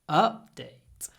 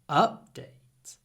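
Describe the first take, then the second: First: The stress is on the first syllable. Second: The same.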